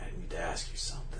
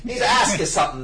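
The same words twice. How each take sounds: First: It is said in a cold, collected voice. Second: It is said in a gruff old-gangster voice. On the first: "he does it so cold, though. It's so, like, collected" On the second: "I imagine he sounds like an old gangster or something, or an old detective"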